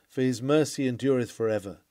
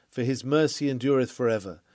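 No difference in how they are said.

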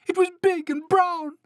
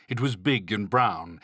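First: Very high, loud mouse squeak; squeaky storybook panic; frightened mouse cry. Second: Said in the usual way. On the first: A narrator's reading. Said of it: "cried the mouse".

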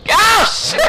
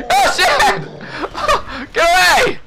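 First: Panicked shout. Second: High, laughing yell; laughing panic. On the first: Player yelling in alarm at the enemy. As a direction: yell it in alarm. Enemy jumps him again. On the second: Player laughing as he shouts at the enemy. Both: Real, not acted.

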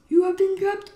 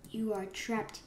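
First: High, shouted gloat; loud villain proclamation. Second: Soft half-whispered gloat; hushed villain taunt. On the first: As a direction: announce it loudly to the caught prey. Villain line, second loud take. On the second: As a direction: murmur it quietly to the caught prey. Villain line, first hushed take. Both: Pretend.

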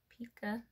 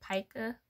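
First: "Pica?" said PEE-kuh, long e as in see, a bit softer; retry "Pica?" as PEE-kuh, hesitant; "Pica?" as PEE-kuh, softer second guess; another try at pica. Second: "Pica?" said PIE-kuh, long i as in pie, rising like a question; "Pica?" as PIE-kuh with a questioning lift; trying the word pica. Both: Shown as a demonstration. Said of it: "what is it?".

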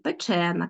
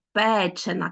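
First: Печена stressed on the middle syllable, -CHE-; stress on second syllable. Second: Печена stressed on the first syllable, PE-. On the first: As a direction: say печена as pe-CHÉ-na. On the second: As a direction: say Печена as PÉ-che-na. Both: Shown as a demonstration. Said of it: "наголос".

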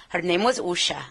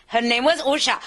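First: Said in the usual way. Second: Higher, lilting Indian English; Indian accent. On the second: Shown as a demonstration. Imitating her close associate from India, Indian accent. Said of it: "she talked like this".

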